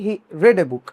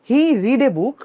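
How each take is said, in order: First: The verb has a short 'e' vowel sound. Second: The verb has a long 'ee' vowel sound. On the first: It is read as the past tense. The speaker calls it right. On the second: It is read as the present tense. The speaker calls it wrong.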